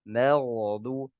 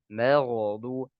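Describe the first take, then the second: The two takes are said the same way.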